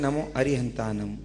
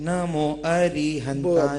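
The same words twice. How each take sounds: First: The vowel in 'ri' is short. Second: The vowel in 'ri' is long. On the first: The speaker calls it right. "जैसा कि होना चाहिए नमो अरिहंतानम, री छोटी होनी चाहिए" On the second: The speaker calls it wrong. "री को बड़ा कर देते हैं, जैसे"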